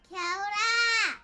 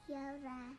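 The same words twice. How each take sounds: First: It is said loudly. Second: It is said quietly.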